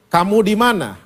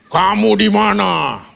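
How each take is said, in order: First: It sounds calm, gentle and searching. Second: It sounds loud, angry and frightening. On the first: The asker is looking for someone, not angry. The speaker calls it right. "Ternyata intonasinya Tuhan tidak marah sama Adam. Dia mencari" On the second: The asker is furious and threatening. The speaker calls it wrong. "itu sama persis kayak dinosaurus masuk di Jurassic Park"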